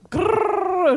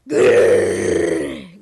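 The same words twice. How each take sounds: First: High, snarling mock growl; wolf growl. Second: Deep rumbling growl; wolf growl. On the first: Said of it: "ringhiò il lupo". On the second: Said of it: "growled the wolf". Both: A narrator's reading.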